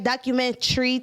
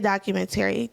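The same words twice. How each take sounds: First: The word ends with a sound like 'tree'. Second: The word ends with a 'tary' sound. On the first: "If you say tree, right?" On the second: "like how I was taught in school"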